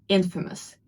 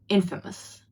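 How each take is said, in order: No difference in how they are said.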